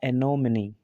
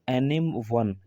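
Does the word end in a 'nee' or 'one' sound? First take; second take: nee; one. First: The word ends with a 'nee' sound. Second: The word ends with a 'one' sound. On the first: The speaker calls it right. "एनोमिनी ही इसका जो pronunciation है वो सही है" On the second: The speaker calls it wrong. "पर ऐसे नहीं पढ़ा जाएगा"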